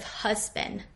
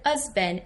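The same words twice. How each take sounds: First: The H sound at the start is pronounced. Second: The H sound at the start is dropped. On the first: "instead of husband" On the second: "she said husband"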